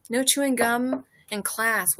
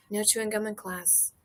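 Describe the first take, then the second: First: Slow, loud, each word spelled out like a posted rule; deliberate rule announcement; mock sign voice. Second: Said in the usual way. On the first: Shown as a demonstration. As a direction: read it like a stern notice.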